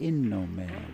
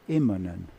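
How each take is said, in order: First: The n sound comes before the m sound. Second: The m sound comes before the n sound. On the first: The speaker calls it wrong. "He used to say" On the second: The speaker calls it right. "instead of Immonen"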